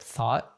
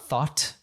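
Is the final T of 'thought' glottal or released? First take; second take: glottal; released. First: The final T is a glottal stop. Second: The final T is clearly released. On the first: The speaker calls it right. "he has a glottal T there" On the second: The speaker calls it wrong. "so it's not thought"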